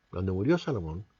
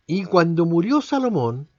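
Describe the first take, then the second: First: Murió said low and soft; quieter repeat. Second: Murió held long and louder; stress on murió. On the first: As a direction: drop the voice on murió Salomón. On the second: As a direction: lean on murió, louder take. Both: Shown as a demonstration. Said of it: "repeated take".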